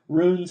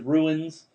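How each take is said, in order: First: The word is said as one syllable. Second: The word is said as two syllables. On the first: The speaker calls it right. "Like runes" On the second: The speaker calls it wrong. "he pronounces ruins"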